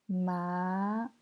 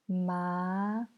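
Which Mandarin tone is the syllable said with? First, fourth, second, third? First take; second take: second; second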